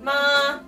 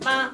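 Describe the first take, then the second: First: The pitch stays level and steady throughout. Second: The pitch is level but said very quickly. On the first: "el primer tono es ma. ... en una línea siempre se mantiene el tono" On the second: "el quinto ... es como el primero, pero más rapidito"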